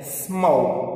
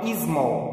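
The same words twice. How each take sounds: First: It is pronounced in an English way. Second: It is pronounced in a Brazilian Portuguese way. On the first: The speaker calls it right. "vai ser" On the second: The speaker calls it wrong. "não"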